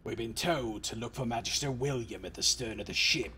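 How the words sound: It is read in a put-on character voice.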